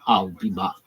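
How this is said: It is said in a Terminator impression.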